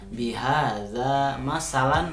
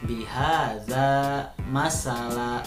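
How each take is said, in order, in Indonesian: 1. Kata terakhir berakhir dengan bunyi n pendek. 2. Kata terakhir berakhir dengan vokal panjang. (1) "cara membacanya bukan bihaza masalan, bukan" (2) "jadi dibacanya harus mad, jadi panjang"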